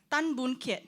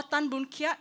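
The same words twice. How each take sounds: First: "Kiat" pronounced "ket", short vowel as in "pet". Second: "Kiat" opened out to "kee-aht". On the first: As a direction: say "Kiat" as one syllable, like "ket". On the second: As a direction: say "Kiat" with a gliding "ia", like "kyaht". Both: Shown as a demonstration. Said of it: "how would y'all pronounce it".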